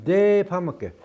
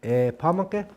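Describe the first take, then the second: First: Depamake with a hard d, higher and louder; Dakota pronunciation. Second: Epamake starting on an open e; Dakota pronunciation. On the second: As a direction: begin Epamake straight on the vowel. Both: Shown as a demonstration. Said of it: "What's the difference?".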